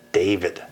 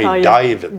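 First: The name is said in a Northern US accent. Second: The name is said in a Southern US accent. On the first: This is how people elsewhere say it. "everybody in the North calls me David" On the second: This is how a parent said it at home. "she would call me David"

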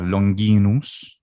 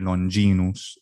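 First: It is said in classical Latin pronunciation. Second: It is said in ecclesiastical Latin pronunciation.

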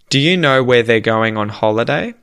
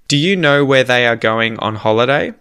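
First: 'They are' is contracted to one syllable. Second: 'They are' is said as two full words.

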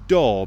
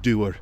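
First: The word is said as one syllable. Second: The word is stretched into two syllables. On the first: "a one-syllable word" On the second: "becomes a two-syllable word"

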